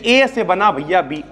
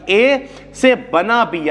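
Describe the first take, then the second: First: Said in the usual way. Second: Slow, word-by-word literal reading; mock slow wrong reading. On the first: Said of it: "वरना लोग ऐसे कहते". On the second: Shown as a demonstration. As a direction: drag it out like a student sounding out arrows. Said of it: "ऐसे नहीं पढ़ना".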